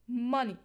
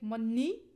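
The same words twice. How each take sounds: First: The stress is on the first syllable. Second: The stress is on the second syllable. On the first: The speaker calls it right. "So we will stress the first" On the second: The speaker calls it wrong. "We don't say money"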